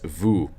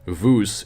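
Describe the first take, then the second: First: The final s is silent. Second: The final s is pronounced. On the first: The speaker calls it right. "it's vous" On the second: The speaker calls it wrong. "It's not vous"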